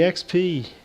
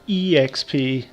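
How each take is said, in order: First: It is spoken as two letters, X and P. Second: It is spoken as three letters, E, X, P. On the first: "I always grew up saying X P" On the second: "whenever I hear anyone else refer to it, they say E X P"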